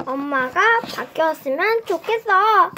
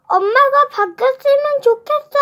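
First: Said in the usual way. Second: Loud, much higher sulky shout; loud cry. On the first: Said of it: "여기 보시면". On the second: Acted. 준혁 shouting at mom that he wants a new one. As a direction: yell it out in a pout. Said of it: "큰 소리로 외쳤어요".

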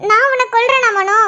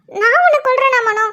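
First: நான் punched, the rest falling away; stress on நான். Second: உன்னை hit hardest, நான் left light; stress on உன்னை. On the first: Wife stressing நான் while accusing Mano in a mock quarrel. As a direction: lean hard on நான், not on உன்னை. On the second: Wife, repeating it to Mano, now pressing on உன்னை. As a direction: lean on உன்னை this time, not on நான். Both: Acted.

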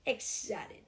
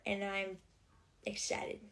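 First: Said in the usual way. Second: Breathy whisper of the word excited. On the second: Real, not acted. Whispering to viewers about her Christmas trip, hushed. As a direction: hush it, like a secret thrill.

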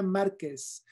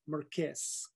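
First: Said in the usual way. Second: "Márquez" as soft, slow mar-KEZ; anglicized pronunciation. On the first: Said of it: "Se dice García Márquez". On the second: Shown as a demonstration. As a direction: say "Márquez" with English r, stressed on the end. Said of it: "no Márquez".

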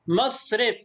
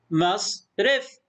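First: Said in the usual way. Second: Slow مصرف as "mas ... ref"; split into syllables. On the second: Shown as a demonstration. Teacher sounds out the word, syllable by syllable. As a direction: pause inside مصرف after the s. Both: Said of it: "مقطع ساكن".

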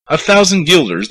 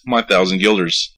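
First: High, incredulous yelp on thousand; a startled mayor balking at the price; shocked disbelief. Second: Said in the usual way. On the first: Acted. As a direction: gasp it out as if robbed. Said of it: "The mayor looked blue".

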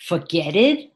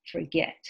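First: "Forget it" as "for-GET-id", rising like a question; wrong past form. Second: Said in the usual way. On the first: Shown as a demonstration. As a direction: try "Forget it" as forget plus an ED syllable, doubtfully. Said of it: "No, that's wrong". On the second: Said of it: "How about, let's see, forget".

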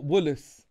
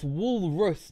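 First: "woolus" with the R missing; mispronounced walrus. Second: "walrus" said slowly with a clear R; correct walrus pronunciation. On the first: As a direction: say "woolus" slowly, dropping the R of walrus. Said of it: "you literally missed the R". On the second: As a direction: sound out "walrus", keeping the R in the middle. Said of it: "not wool-, woolus". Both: Shown as a demonstration.

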